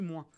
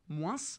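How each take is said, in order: First: The final S sound is dropped. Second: The final S sound is pronounced. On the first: This is how young people say it now. "on dit moins" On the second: This is the older regional way of saying it. "on ne dit plus moins"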